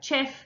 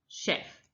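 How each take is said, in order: First: The word begins with a ch sound. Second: The word begins with a sh sound. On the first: "the first thing they're going to try is ch" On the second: "If that doesn't work, try sh"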